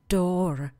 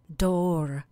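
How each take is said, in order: First: It is said with an American accent. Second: The same.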